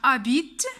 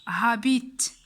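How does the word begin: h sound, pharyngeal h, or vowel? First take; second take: vowel; pharyngeal h. First: The word begins directly with the vowel. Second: The word begins with a harsh pharyngeal h. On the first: The speaker calls it right. "عندنا habite" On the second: The speaker calls it wrong. "ما تقناش habite ... بحا"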